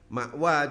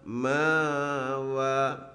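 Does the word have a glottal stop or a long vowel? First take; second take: glottal stop; long vowel. First: A glottal stop is in the middle. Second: A long vowel, held two beats, replaces it. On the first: "Mengganti hamzah dengan huruf mat" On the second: "huruf mat bacanya harus dua harokat"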